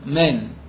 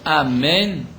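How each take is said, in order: First: The opening vowel sound is left out. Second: The whole word is said with every sound.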